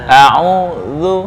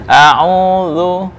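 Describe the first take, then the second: The two takes are said the same way.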